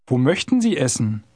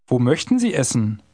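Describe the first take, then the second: No difference in how they are said.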